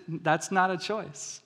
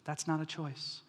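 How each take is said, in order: First: Slow, "not" stressed, falling end; "That's not a choice" slow with stress on not; slow firm parent line. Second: NOT leaned on, flat final fall; "That's not a choice" with not stressed, falling firmly; firm parent phrase. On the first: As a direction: say it slowly like a settled rule. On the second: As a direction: lay it down like a parent, no arguing. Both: Shown as a demonstration. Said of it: "Here's a great parenting phrase".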